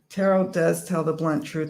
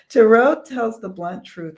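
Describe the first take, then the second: First: It is read in a plain, casual way. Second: It is read firmly, with strong conviction. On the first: The speaker calls it wrong. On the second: The speaker calls it right.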